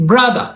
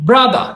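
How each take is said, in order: The two takes are said the same way.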